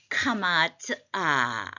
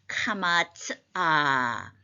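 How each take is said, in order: No difference in how they are said.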